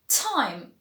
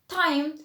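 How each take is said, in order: First: The t is breathy, close to a soft ch. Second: The t is a hard, unaspirated stop. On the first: The speaker calls it right. "It's like a ch sound, but just toned down a little bit" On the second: The speaker calls it wrong. "you pronounce the T as a T sound"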